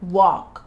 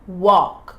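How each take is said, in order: Both takes have the same delivery.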